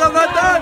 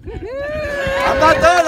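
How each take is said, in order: First: Loud high shout of protest. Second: Very high, slow drawn-out protest; drawn-out high cry. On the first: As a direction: shout it out to hold the floor. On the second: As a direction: stretch it out high and long. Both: Real, not acted.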